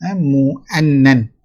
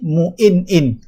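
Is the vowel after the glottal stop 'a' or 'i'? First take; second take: a; i. First: The vowel after the glottal stop is 'a'. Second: The vowel after the glottal stop is 'i'. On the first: "Yang masyhurnya ialah mu'annan" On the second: "boleh dibaca dengan kasrah pada hal hamzah tadi"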